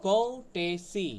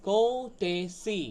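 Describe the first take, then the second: The two takes are said the same way.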